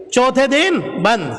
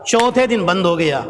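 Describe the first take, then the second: First: چوتھے دن بند said slowly, each word weighed, falling at the end; slow emphatic repeat. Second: Said in the usual way. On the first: Shown as a demonstration. Preacher stresses the fourth day to his listeners, slow and weighty. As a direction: lean on چوتھے دن بند slowly so the congregation notices. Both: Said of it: "اب سنیے گا".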